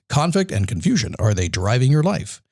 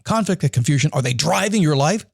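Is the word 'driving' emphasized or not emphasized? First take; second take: not emphasized; emphasized. First: The word driving gets no special emphasis. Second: The word driving is given extra emphasis.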